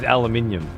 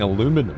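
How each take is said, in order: First: It is said the British way, with five syllables. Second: It is said the American way, with four syllables. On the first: The speaker calls it right. "It was always aluminium" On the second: The speaker calls it wrong. "Fucking aluminum"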